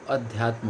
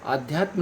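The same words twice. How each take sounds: First: अध्यात्म with a short a at the start; अध्यात्म said with a short first vowel, as the right form; correct form adhyatm. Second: आध्यात्म with long aa at the start; आध्यात्म said with a long first vowel, as the wrong form; wrong spelling aadhyatm. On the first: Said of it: "अध्यात्म होता है". (सही रूप अध्यात्म) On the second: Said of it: "आध्यात्म नहीं होता है". (गलत रूप आध्यात्म) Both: Shown as a demonstration.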